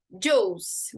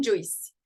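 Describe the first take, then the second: First: "juice" as one long "joos", no I heard; silent I in juice. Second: "juice" misread as "joo-ees", I pronounced; wrongly sounded I. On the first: Teacher showing the right "juice", silent I. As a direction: say "juice" with the I silent, rhyming with goose. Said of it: "o I também, ele não é pronunciado". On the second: Teacher showing the mistaken "juice", with a voiced I. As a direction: say "juice" in two parts, sounding the I. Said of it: "não juice". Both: Shown as a demonstration.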